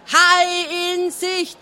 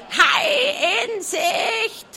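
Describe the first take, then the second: First: High, slow shouted call through cupped hands; lookout's bellow. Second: Very high, slow screeched crow; crowing hen shout. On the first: Schrottauge bellowing the warning himself. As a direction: bellow through a hand trumpet. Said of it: "brüllte". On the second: The hen screeching the warning from the crow's nest. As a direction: crow it out at the top of the lungs. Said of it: "krähte aus voller Kehle". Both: A narrator's reading.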